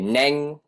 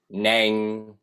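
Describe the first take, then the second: First: The word has the tone of 'mi'. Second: The word has the tone of 'do'. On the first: It is the speaker's name. "how you emphasize the word mi" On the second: It means horse. "instead of do, if you say neng"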